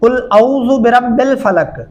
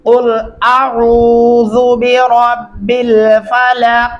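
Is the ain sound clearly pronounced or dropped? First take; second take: dropped; clear. First: The ain sound is slurred away and dropped. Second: The ain sound is clearly pronounced. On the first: The speaker calls it wrong. "कुल औज़ु पढ़ने से फिर आइन जो है ये बिल्कुल आप मूव कर देते हैं" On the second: The speaker calls it right. "अब इसका सही तरीका क्या है, गौर से सुनिए।"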